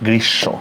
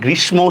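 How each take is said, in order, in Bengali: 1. sh ধ্বনিটি দ্বিত্ব হয়, কোনো 'm' নেই। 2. sh-এর পরে একটি 'm' ধ্বনি শোনা যায়। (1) "দ্বিত্ব মানে দুইবার" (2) "আমরা অনেকে এটাকে গ্রীষ্ম উচ্চারণ করি, এটা কিন্তু ঠিক না"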